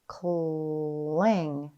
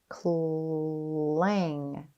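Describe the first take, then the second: The two takes are said the same way.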